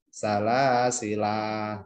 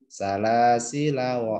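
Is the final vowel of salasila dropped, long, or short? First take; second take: long; short. First: The final vowel is held long. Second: The final vowel is short. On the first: The reader stops after this word. "atau panjang satu alif" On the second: The reader continues into the next word. "Berarti kalau terus ini pendek"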